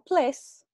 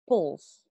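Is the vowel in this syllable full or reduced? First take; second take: full; reduced. First: The syllable has a full, clear vowel. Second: The syllable has a very reduced vowel. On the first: The speaker calls it wrong. "No ples" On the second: The speaker calls it right. "con el sonido vocal muy reducida"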